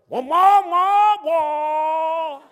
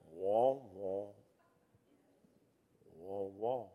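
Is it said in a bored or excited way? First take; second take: excited; bored. First: It is said in a lively, excited way. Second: It is said in a dull, bored way.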